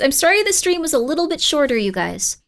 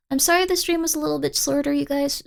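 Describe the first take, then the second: First: Said in the usual way. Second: Drowsy, slurred words; slurred apology. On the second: Real, not acted. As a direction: slur it sleepily. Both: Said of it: "I'm slurring my words".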